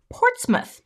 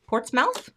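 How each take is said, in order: First: "Portsmouth" pitched high, ending in a short "muth"; "Portsmouth" with a weak, reduced second syllable; reduced British pronunciation. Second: "Portsmouth" ending in a full "mouth", rising like a question; "Portsmouth" as "ports-MOWTH", unsure; questioning pronunciation. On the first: Corrects to British pronunciation of town. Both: Shown as a demonstration.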